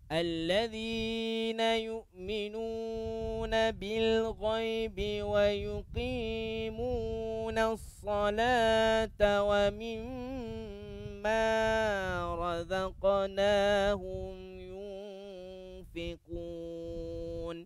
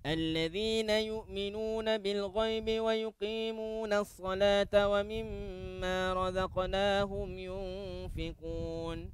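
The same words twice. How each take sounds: First: It is recited at a slow tempo. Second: It is recited at a fast tempo.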